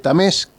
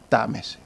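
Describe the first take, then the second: First: The stress is on the last syllable. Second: The stress is on the first syllable. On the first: This is the original form of the surname. "que era el apellido originario" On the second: This is the later form of the surname. "los Tames perdieron el acento en la E"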